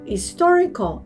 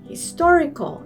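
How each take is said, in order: No difference in how they are said.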